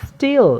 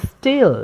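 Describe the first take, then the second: Both takes have the same delivery.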